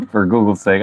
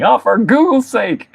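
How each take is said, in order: First: Said in the usual way. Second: High, drawn-out comic exclamation; mock exclamation. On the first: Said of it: "That's his name". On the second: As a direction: play up the silly oath, pitched high and slow. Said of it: "I love saying, saying".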